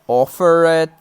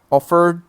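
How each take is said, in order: First: The ending is an extra 'id' syllable. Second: The ending is a single d sound. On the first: The speaker calls it wrong. "some students sometimes say" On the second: The speaker calls it right. "we pronounce them like duh"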